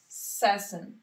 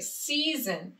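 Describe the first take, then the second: First: The first vowel is not a long 'ee'. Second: The first vowel is a long 'ee' sound. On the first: The speaker calls it wrong. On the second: The speaker calls it right.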